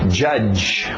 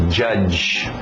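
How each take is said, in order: No difference in how they are said.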